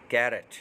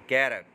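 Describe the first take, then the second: No difference in how they are said.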